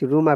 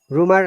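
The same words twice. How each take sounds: First: It is said with a British accent. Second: It is said with an American accent. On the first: "British English"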